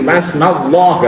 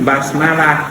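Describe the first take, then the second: First: The l sound is heavy and thick. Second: The l sound is light and thin. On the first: "harus dibaca tafkhim" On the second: "bukan basmalah"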